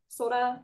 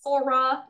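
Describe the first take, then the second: First: The r sounds halfway between l and r. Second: The r is a plain English r sound. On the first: The speaker calls it right. "kind of like in between the L and R" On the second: The speaker calls it wrong. "it's not Sora"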